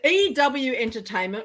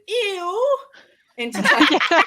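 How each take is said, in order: First: EW is spoken as two separate letters. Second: EW is spoken as one short word. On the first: "do you pronounce, is it E W Entertainment" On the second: "or as I like to pronounce it"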